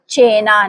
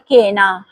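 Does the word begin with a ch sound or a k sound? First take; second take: ch sound; k sound. First: The word begins with a ch sound. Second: The word begins with a k sound. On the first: The speaker calls it right. "इसे पढ़ा जाएगा चेना" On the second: The speaker calls it wrong. "ना के केना। हरगिज नहीं बोलना।"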